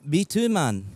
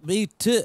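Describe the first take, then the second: First: Put-on Scottish, stretched vowels; faked Scottish accent; Scottish accent attempt. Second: Slow, abandoned attempt at Scottish; half-hearted Scottish accent; faltering Scottish accent. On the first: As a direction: answer in an amateur Scottish accent. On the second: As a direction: start in Scottish accent and give up. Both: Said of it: "I can't do a Scottish accent".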